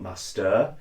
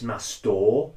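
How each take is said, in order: First: It is said with an English accent. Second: It is said with an American accent. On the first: The speaker calls it wrong. "not master" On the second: The speaker calls it right. "it's master"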